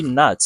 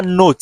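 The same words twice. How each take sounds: First: "not" as "nah", open a with the t dropped; American not. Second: "not" with a full round o, as written; the "not" to avoid, said with a round o; wrong not. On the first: Teacher models the American "not" for students. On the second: Teacher shows the wrong French-style "not". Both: Shown as a demonstration. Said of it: "Ce n'est pas not. Je dis not".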